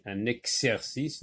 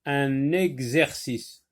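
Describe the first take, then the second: First: Exercice said eksercice with a ks; wrong ks sound. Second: Exercice said with gz, egzercice, slowly; correct gz sound. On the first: Teacher showing pupils the mistake to avoid. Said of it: "on va pas dire comme ici". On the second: Teacher reading the word slowly to her pupils. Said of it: "non, un exercice". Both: Shown as a demonstration.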